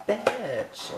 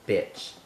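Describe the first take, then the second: First: Bitch sung high and affectionate, falling; loving bitch. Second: Spat out with contempt, louder; hateful bitch. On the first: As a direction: say it like a fond greeting to a friend. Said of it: "If you love someone". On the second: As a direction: say it like you hate them. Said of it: "if you hate someone". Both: Shown as a demonstration.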